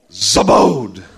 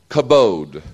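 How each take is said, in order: First: The first sound is a throaty, raspy sound. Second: The first sound is a plain hard k. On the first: "Actually, it's. ... Got to put some spit with it" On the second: "It is the word kabod"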